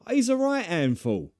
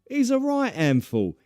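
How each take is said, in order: Both takes have the same delivery.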